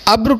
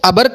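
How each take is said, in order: First: The b and r join with no vowel. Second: A short vowel separates the b and r. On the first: The speaker calls it right. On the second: The speaker calls it wrong.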